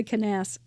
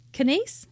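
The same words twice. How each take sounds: First: "Canas-" with an open second vowel; first pronunciation try. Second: "Canase" with a long AY, like "nace"; second pronunciation guess. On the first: Host guessing at a guest's last name, first pronunciation try. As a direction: try "Canas-" ending like "nass", unfinished. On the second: Host unsure of a guest's last name, questioning pronunciation. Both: Real, not acted. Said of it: "I've never heard her say her last name".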